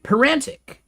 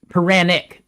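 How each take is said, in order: First: The name is said with a t sound. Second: The name is said without a t sound. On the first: The speaker calls it wrong. "I think I'm saying that right" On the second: The speaker calls it right. "without the T"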